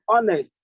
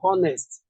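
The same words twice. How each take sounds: First: The word starts without an h sound. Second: The word starts with an h sound. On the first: The speaker calls it right. "The H here is not sounded" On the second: The speaker calls it wrong. "not honest"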